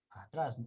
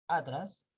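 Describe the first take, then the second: First: Atrás stressed on the end, a-TRÁS; atrás said the right way, weight on its second syllable; stress on last syllable. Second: Atrás wrongly stressed on the first syllable, Á-tras; atrás as Á-tras, the mistaken reading; misplaced stress. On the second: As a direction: punch the opening A of atrás. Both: Shown as a demonstration. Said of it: "¿Acaso, acaso leen ustedes atrás?".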